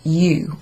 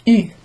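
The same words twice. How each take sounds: First: "U" said as English "you"; name the letter "U" the English way, "yoo". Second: "U" as French u, rounded "ee"; French letter U. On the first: Teacher naming the ending in English, "U" as "you". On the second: Teacher naming the ending in French, rounded front "U". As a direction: say "U" with tight rounded lips, French style. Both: Shown as a demonstration. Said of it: "you add U or U".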